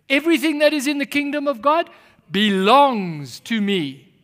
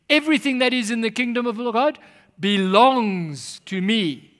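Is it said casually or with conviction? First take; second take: with conviction; casually. First: It is said forcefully, with strong conviction. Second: It is said plainly, without strong conviction.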